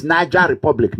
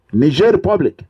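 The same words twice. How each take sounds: First: Niger said as "NAI-ja"; wrong Niger pronunciation. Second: Niger said as "nee-ZHAIR"; correct Niger pronunciation. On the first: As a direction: say Niger wrongly, like "Naija", before Republic. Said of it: "You cannot say it's". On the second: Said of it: "No, Niger Republic". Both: Shown as a demonstration.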